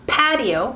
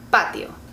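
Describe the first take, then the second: First: The p has a strong puff of air. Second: The p has almost no puff of air. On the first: "patio in English" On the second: "we don't have all the air pushing out of our mouths"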